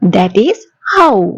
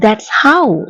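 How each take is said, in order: First: Both words 'that is' are said in full. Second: 'That is' is contracted into one syllable.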